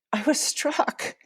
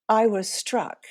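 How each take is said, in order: First: Higher and breaking with emotion; slowed, choked-up retelling; emotion welling up. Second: Said in the usual way. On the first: Real, not acted. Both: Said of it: "all the emotions are coming back up".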